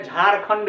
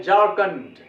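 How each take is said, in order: First: झारखंड with aspirated jh and kh; Hindi pronunciation. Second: झारखंड as "jaar-kund", no aspiration; झारखंड with plain j and plain k; English pronunciation. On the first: Teacher shows how our own people say it, aspirated झारखंड. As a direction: say झारखंड fully breathed, "jhaar-khand". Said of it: "अपने लोग बोलते हैं". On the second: Teacher quotes English speakers' way, झारखंड as "jaar-kund". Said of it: "ऐसे वो लोग बोलता है". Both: Shown as a demonstration.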